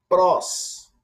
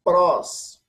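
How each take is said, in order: First: Prós, higher and louder, said alone; model prós. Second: Prós, higher and louder, repeated for the class. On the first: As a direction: announce prós clearly to the class. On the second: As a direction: say Prós once more, crisp. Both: Shown as a demonstration. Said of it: "Vou repetir a pronúncia".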